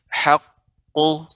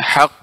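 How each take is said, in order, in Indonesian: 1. Konsonan akhirnya dilepas menjadi vokal. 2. Konsonan akhirnya ditahan dan dipotong pendek. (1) "akan tapi haqqu" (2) "tidak hak ya, tidak ada tertahannya suara hak ya"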